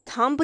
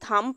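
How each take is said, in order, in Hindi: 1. इस शब्द के अंत में b की आवाज़ साफ़ सुनाई देती है। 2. यह शब्द m पर खत्म होता है, इसमें b की आवाज़ नहीं है। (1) "थंब नहीं पढ़ रहे" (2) "अब इस वर्ड को हम थंब पढ़ रहे हैं"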